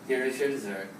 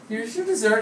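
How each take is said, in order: First: The pitch stays flat across the phrase. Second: The pitch moves up and down across the phrase. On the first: It sounds impolite despite the smile. The speaker calls it wrong. "there was not this difference in intonation" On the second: It sounds polite. The speaker calls it right. "So they changed it"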